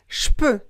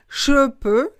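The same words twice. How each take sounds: First: The 'je' becomes a voiceless 'sh' sound. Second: The 'je' keeps its voiced 'zh' sound. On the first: The speaker calls it right. "le je est prononcé ch" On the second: The speaker calls it wrong. "C'est pas je peux, non"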